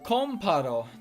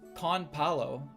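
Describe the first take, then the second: First: The middle consonant is an R sound. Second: The middle consonant is an L sound. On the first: The speaker calls it right. "it's Comparo" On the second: The speaker calls it wrong. "not Conpalo"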